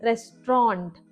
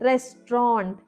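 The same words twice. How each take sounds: The two takes are said the same way.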